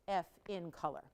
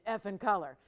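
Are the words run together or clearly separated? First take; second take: separated; run together. First: Each word is said clearly and separately. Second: The words run together as one word. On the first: It names the diamond's color grade. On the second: It sounds like a mild swear word.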